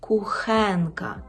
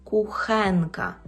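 No difference in how they are said.

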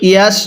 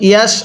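The two takes are said the same way.

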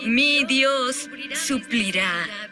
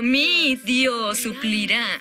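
First: The stress falls on the word Dios. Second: The stress falls on the word mi. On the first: The promise is about who provides. "Eso lo hace sobre Él" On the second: The promise is personal to the speaker. "Lo hace personal, mi Dios"

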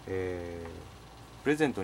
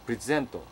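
First: The stress is on the first syllable. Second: The stress is on the second syllable. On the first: It is a noun or adjective: a gift, or current. "プレゼントにはですね、形容詞か名詞" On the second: It is a verb: to give or to present. "こう発音しますと動詞になりまして"

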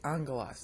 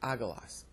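First: The double g is said with an ng sound. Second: The double g is said without a nasal sound. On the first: The speaker calls it right. "you pronounce them like N-G. So you say angelos" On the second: The speaker calls it wrong. "not agelos"

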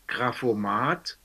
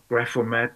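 First: The word is pronounced the German way. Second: The word is pronounced the English way. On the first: "I say it in German" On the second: "if you pronounce it English"

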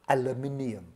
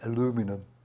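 First: It is said with a British pronunciation. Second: It is said with an American pronunciation. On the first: The speaker calls it right. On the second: The speaker calls it wrong.

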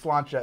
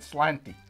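First: The word ends with a 'cha' sound. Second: The word ends with a 'tee' sound. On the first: The speaker calls it right. "but it's slancha" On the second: The speaker calls it wrong. "I always pronounced it slanty. Because I read it as it's written"

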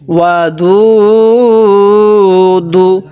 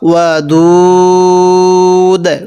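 First: The word ends with a short u vowel. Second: The word ends on the consonant d. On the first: The reading continues without stopping here. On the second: The reader stops at this word.

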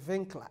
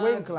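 First: The name is said with a German pronunciation. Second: The name is said with an English pronunciation. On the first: "in German they say Winkler" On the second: "instead of Winkler"

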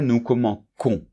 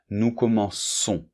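First: The c is pronounced like a hard k. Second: The c is pronounced like an s. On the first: The speaker calls it wrong. "si no pongo la cedilla, pues sería" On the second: The speaker calls it right. "la letra C se pronuncia como una S"

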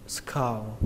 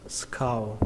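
No difference in how they are said.

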